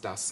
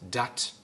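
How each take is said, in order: First: The word ends with an S sound. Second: The word ends with a T sound. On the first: This is the standard German form. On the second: This is the Low German form.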